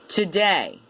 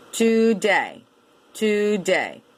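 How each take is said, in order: First: Said in the usual way. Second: TODAY in two full beats, TOO-DAY; by syllables. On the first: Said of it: "can also be seen as a tricky word". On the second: Shown as a demonstration. Teacher showing two syllables, TODAY as TOO-DAY. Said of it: "but two syllables".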